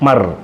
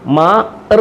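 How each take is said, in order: First: The two sounds are joined quickly into one syllable. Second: The two sounds are said slowly, with a break. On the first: The speaker calls it right. "രണ്ടക്ഷരങ്ങൾ തമ്മിൽ ചേർത്ത് പറയുമ്പം സ്പീഡിൽ വായിക്കണം" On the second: The speaker calls it wrong. "മാ ഇർ നമ്മളിപ്പോൾ വായിച്ചത്, ഇനി അത് മാറ്റുക"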